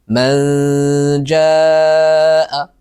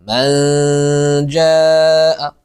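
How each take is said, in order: No difference in how they are said.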